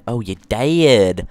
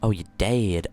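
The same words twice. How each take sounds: First: Loud. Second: Said in the usual way. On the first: Shown as a demonstration.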